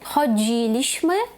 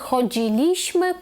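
First: The stress is on the third-last syllable. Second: The stress is on the second-last syllable. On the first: The speaker calls it right. "Наголос тут буде ставитись не на другий склад з кінця, а на третій" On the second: The speaker calls it wrong. "Чисто теоретично ми повинні би були сказати «chodziliśmy», «kupowaliśmy», але це неправильно"

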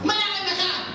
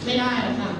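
First: The refusal is said in a sharp, harsh tone. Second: The refusal is said in a soft, gentle tone. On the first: The refusal startles the listener. The speaker calls it wrong. "เป็นอย่างนี้ลูกค้าตกใจเลย" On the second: The refusal is polite and kind. The speaker calls it right. "นุ่มกว่า"

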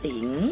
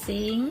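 First: The word is said on a rising tone. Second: The word is said on a high tone.

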